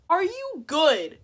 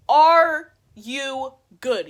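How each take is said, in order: First: High, loud, slow demand; acted-out high indignant question; incredulous challenge. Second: Very loud, hugely drawn-out words; acted-out word-by-word fury; outraged challenge. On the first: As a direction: ask it slowly, pitched up in outrage. First take of furious retort. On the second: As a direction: bellow each word separately, very slowly. Repeated, louder furious retort.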